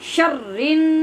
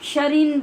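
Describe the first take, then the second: First: The r sound is held and doubled. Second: The r sound is short and single. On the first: The speaker calls it right. "रा के ऊपर शद है, इसको यहीं पर सख्त करें" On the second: The speaker calls it wrong. "आप शरीन बोलते हैं और ये आवाज़ गलत है"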